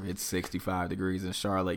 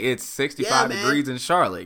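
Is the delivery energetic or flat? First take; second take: flat; energetic. First: It is said flatly with low energy. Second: It is said lively with high energy. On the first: The speaker sounds uninterested in the content. The speaker calls it wrong. "So I can't be like" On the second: The speaker sounds engaged and wants to be there. The speaker calls it right. "it's gotta have more energy"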